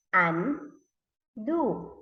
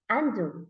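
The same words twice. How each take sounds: First: "undo" broken into un, pause, do; read by syllables. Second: Said in the usual way. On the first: Shown as a demonstration. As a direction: split "undo" into two slow beats. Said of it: "read by syllables". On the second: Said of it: "read it together".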